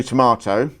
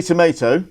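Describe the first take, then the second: First: "tomato" with a long AH middle, tuh-MAH-toh; British tomato. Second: "tomato" with an AY middle vowel, tuh-MAY-toh; American tomato. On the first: Cohost giving the British way, tomato as tuh-MAH-toh. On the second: Cohost checking the American way, tomato as tuh-MAY-toh. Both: Shown as a demonstration.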